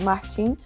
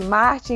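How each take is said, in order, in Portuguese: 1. O nome é dito com a pronúncia do português brasileiro. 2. O nome é dito com uma pronúncia internacional, parecida com o inglês. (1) "pela pronúncia brasileira, que é de Martim" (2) "é super internacional, chama de Martin"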